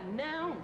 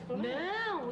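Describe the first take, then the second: First: The word is said plainly, without emphasis. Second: The word is said with strong emphasis. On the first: The refusal is a simple statement. "e o outro fica" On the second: The refusal is forceful, with exclamation. "um fica com mais ênfase"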